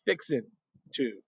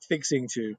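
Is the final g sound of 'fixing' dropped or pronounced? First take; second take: dropped; pronounced. First: The final g sound of 'fixing' is dropped. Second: The final g sound of 'fixing' is pronounced. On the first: "in the South, G's get left off" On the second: "it's not fixing to"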